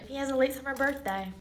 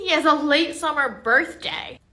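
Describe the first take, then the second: First: Said in the usual way. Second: Exasperated repeat. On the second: Acted. Acted teacher repeats, exasperated.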